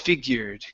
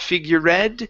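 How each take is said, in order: First: The ending is said with no extra syllable. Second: The ending is said as an extra syllable. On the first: The speaker calls it right. "It's figured. / that e needs to disappear" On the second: The speaker calls it wrong. "it's not figured. / you're pronouncing the E"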